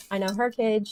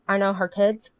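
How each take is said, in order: First: Her stressed, falling to the end. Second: Put-on kids lifted with a rise at the end; stress on kids. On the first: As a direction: put the weight on the word her. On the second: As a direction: lean on the word kids, rising. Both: Shown as a demonstration.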